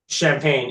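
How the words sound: The word is pronounced the English way. The speaker calls it wrong. "Champagne in English"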